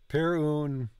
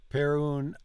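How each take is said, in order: The two takes are said the same way.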